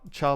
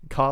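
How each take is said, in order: First: The word begins with a ch sound. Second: The word begins with a hard k sound. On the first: "char like chair" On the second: "Car like character"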